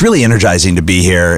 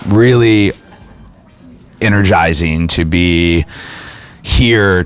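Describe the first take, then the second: First: It is said in a lively, high-energy voice. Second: It is said in a flat, low-energy voice. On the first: The speaker calls it right. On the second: The speaker calls it wrong.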